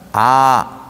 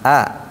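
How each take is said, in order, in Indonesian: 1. Vokal itu diucapkan dengan mulut terbuka ke atas. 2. Vokal itu diucapkan dengan bibir melebar ke samping. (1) "ke atas kan?" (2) "Jadi bunyi ke samping"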